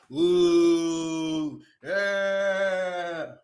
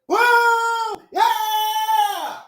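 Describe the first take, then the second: First: The cheer is deep, low and flat. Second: The cheer is loud, high and excited. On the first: Fans are showing no real excitement. The speaker calls it wrong. "Sound like a fucking talking ass cow with a deep ass voice" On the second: Fans are showing real excitement. The speaker calls it right. "That's how loud a W W E fan is supposed to be"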